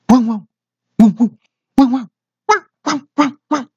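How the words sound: A middle-pitched dog bark.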